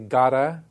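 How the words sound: The T is flapped like an American D.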